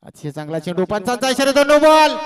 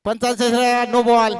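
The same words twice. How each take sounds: First: Commentator erupting at the umpire's signal; building no-ball call. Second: Even-pitched commentator's confirmation; repeated umpire call. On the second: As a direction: restate the call firmly without climbing in pitch. Repeats the call more evenly. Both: Real, not acted.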